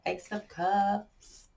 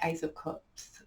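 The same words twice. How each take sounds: First: It is said in a fake American accent. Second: It is said in the speaker's natural accent.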